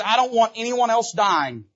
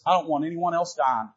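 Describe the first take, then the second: First: Higher, louder insistence; emphatic louder repeat. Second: Said in the usual way. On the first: Acted. David insists no one dies, louder and emphatic. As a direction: press the point home. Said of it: "He says". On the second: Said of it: "And he says this".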